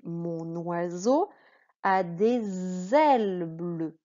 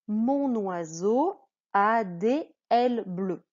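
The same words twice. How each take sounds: First: Final consonants link into the following vowels. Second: Words are said apart without linking consonants. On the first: The speaker calls it right. "je dis" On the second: The speaker calls it wrong. "Non, je ne dis pas ça"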